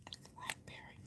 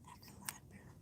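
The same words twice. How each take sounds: First: Hushed, barely voiced whisper; library whisper. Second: Very faint, breath-only whisper; fainter library whisper. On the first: Vlogger telling viewers she's at the library, whispering. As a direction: whisper it softly so nobody is disturbed. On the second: Vlogger repeating where she is, in the faintest whisper. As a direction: let it sink to almost nothing. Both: Real, not acted.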